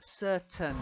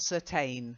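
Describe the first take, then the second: First: The ending is swallowed into a short 'un'. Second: The ending is a full 'ain' sound. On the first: The speaker calls it right. "it's more of an un" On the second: The speaker calls it wrong. "not certain"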